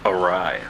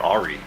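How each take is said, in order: First: The word is said in its usual way. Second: The word is said like the name Ari. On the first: The speaker calls it right. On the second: The speaker calls it wrong.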